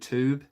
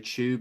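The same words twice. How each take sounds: First: It is said with an American pronunciation. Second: It is said with a British pronunciation. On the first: "instead of tube" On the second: "how British people say tube"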